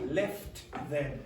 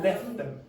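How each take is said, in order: First: The t sound in 'left' is clearly pronounced. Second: The t sound in 'left' is dropped. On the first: The speaker calls it wrong. "It's not going to be left them" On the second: The speaker calls it right. "One of those sounds is going to disappear"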